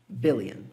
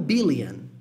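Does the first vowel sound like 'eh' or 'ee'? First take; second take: eh; ee. First: The first vowel sounds like 'eh'. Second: The first vowel sounds like 'ee'. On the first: The speaker calls it right. "A mesma coisa aqui embaixo" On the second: The speaker calls it wrong. "E não billion"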